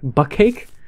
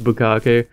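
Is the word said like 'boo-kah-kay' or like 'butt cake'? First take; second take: butt cake; boo-kah-kay. First: It is said like the English words butt cake. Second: It is said with three syllables, boo-kah-kay. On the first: The speaker calls it wrong. "I originally called it butt cake" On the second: The speaker calls it right. "I didn't know it was bukkake"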